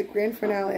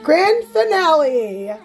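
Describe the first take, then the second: First: Said in the usual way. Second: Slow, high, drawn-out reveal; playful ta-da announcement, higher and slower; showy announcement. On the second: Pretend. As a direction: announce it big, stretching the words out.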